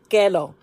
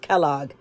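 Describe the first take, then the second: First: The name has a Spanish pronunciation, like Kelo. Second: The name has an English pronunciation.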